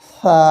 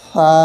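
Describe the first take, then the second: No difference in how they are said.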